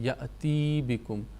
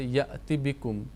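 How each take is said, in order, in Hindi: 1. 'bikum' से पहले का स्वर लंबा खींचा जाता है। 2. 'bikum' से पहले का स्वर छोटा और जल्दी बोला जाता है। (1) "कहाँ पर लोग गलती करते हैं ... या मद्दा में चले जाते हैं" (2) "जल्दी जल्दी से मिलाकर पढ़ना होता है, बीच में ढीला नहीं छोड़ना"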